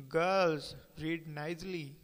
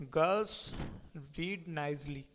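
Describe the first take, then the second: First: Said in the usual way. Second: Put-on Girls, pause, then read nicely; "Girls" rising, a pause, then "read nicely" falling; pause after girls. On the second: Shown as a demonstration. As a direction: break after "Girls" with a rise. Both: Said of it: "The pause can change the entire meaning".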